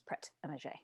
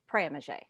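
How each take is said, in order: First: The final T of the first word is pronounced. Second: The final T of the first word is silent. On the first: "But everybody there says" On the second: "if there was a consonant... at the end of a word, it's silent, which is why I would say"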